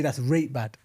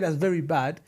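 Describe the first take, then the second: First: Yorkshire That's rate bad, rate for very; Yorkshire accent. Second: Said in the usual way. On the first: Shown as a demonstration. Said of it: "they say". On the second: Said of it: "instead of saying".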